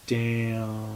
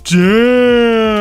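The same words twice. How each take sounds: First: It is said flatly, with little emotion. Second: It is said with strong, exaggerated emotion.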